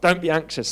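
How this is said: It is said sternly, like a command. It is an order to stop worrying. The speaker calls it wrong. "we can read that as like a command"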